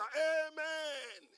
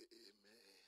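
First: High, shouted, long-held response; roaring amen. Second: Low, very soft, unexcited response; muted amen. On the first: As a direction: imitate a crowd's fervent amen. Imitates excited congregation's amen. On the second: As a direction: imitate a congregation's lukewarm amen. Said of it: "people say". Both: Retold or imitated.

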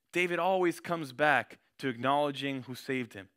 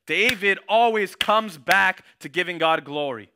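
First: Said in the usual way. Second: Slow, louder proclamation with "always" leaned on; slow, loud preacher declaration; emphatic preaching. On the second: Acted. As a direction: drive the point home to the congregation. Preacher drives home point.

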